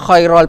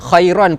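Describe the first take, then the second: First: The n sound is dropped and it ends -al. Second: It ends on -an, with no linking vowel. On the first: "khairal pun salah" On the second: "Khairan pun salah"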